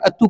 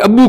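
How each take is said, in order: First: The middle consonant is a t sound. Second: The middle consonant is a b sound. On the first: The speaker calls it wrong. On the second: The speaker calls it right.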